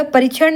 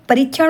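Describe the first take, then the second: First: परीक्षण with a short i; wrong परीक्षण. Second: परीक्षण with a long ee; correct परीक्षण. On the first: Teacher shows the misspelling, परीक्षण with short i. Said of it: "नहीं होगा". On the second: Teacher corrects the vowel, परीक्षण with long ee. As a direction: lengthen the ree in परीक्षण. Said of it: "बड़ी की मात्रा रहेगी". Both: Shown as a demonstration.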